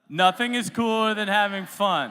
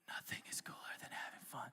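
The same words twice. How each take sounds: First: It is spoken at normal loudness. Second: It is spoken in a whisper.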